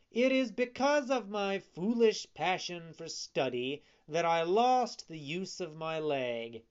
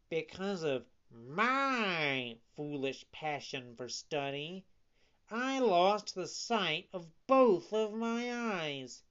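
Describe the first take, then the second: First: Emphatic warning, starting high; admonishing fox. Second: Lamenting cat. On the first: Lame fox blaming study for his leg, emphatic. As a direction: press the cautionary tale firmly. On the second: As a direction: swoop and stretch the woeful words. Cat echoes fox's lament. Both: A narrator's reading.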